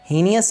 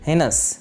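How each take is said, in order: First: The word has three syllables, hee-nee-us. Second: The word has two syllables, hey-nus. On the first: The speaker calls it wrong. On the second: The speaker calls it right.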